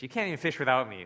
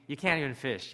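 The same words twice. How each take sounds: First: You can't even fish without me, pushed faster and louder; escalating scorn. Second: Said in the usual way. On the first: Retold or imitated. Jesus scolds Peter for failing, building mock scorn. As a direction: twist the knife on the repeat. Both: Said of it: "Or is it gonna be like".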